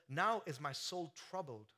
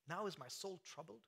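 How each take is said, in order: First: Slow reading of "Now is my soul troubled", falling at the end; quoted as scripture. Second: "Now is my soul troubled" asked softly, rising at the end; incredulous question. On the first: Preacher reading scripture to the church, falling tune. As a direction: read the verse "Now is my soul troubled" slowly and with weight. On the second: Preacher questioning the verse, soft rise. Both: Shown as a demonstration.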